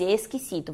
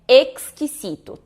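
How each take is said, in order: First: "exquisito" as "eskisito", lower and softer. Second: "exquisito" slow and louder, "eks-kisito"; correct KS. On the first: Retold or imitated. Teacher imitating quick native speech, X reduced to S. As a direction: drop the K from "exquisito", just S. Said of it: "acabam falando som de S". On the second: Shown as a demonstration. Teacher correcting learners, slow emphatic KS. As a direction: stress the crisp K-S in "exquisito". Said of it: "Mas é x".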